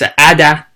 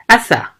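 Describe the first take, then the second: First: The middle consonant is a hard d sound. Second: The middle consonant is a soft th sound. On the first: The speaker calls it wrong. "It's not. Totally not" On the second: The speaker calls it right. "The correct pronunciation is still th sound"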